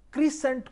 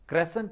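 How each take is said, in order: First: The first vowel is a long 'ee' sound. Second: The first vowel is a short 'eh' sound. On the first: The speaker calls it wrong. "क्रीसेंट कोई pronunciation नहीं है" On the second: The speaker calls it right. "क्रेसेंट क्रेसेंट है"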